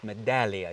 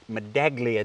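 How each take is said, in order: First: The G sound is silent in the word. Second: The G sound is pronounced in the word. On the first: The speaker calls it right. "You don't pronounce the G" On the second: The speaker calls it wrong. "It's not a med- med- medaglia d'oro like you say"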